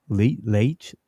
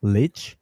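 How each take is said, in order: First: "Leitch" said as "laytch", questioning rise; long-a pronunciation. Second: "Leitch" said as "litch", questioning rise; short-i pronunciation. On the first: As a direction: try Leitch with an ay vowel, like the H in spelling. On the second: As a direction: try Leitch with a short i, rhyming with ditch. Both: Shown as a demonstration. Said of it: "How do you say that?".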